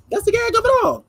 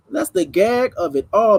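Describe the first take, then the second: First: Squeaky high, sing-song punchline. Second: Said in the usual way. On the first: Shown as a demonstration. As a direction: jump way up high to sell the joke.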